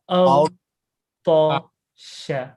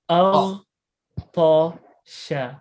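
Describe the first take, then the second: Both takes have the same delivery.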